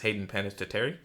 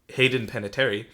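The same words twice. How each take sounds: First: The surname is pronounced in a jokey, exaggerated way. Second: The surname is pronounced in a plain, ordinary way. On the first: "normally I say it in a joking manner as" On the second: "I'm gonna say her last name like that"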